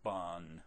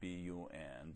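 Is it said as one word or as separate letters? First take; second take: one word; separate letters. First: It is said as one word, bun. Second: It is said as three separate letters. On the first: The speaker calls it wrong. "don't say BUN" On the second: The speaker calls it right. "say BUN"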